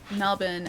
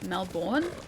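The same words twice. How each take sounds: First: The stress is on the first syllable. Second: The stress is on the second syllable.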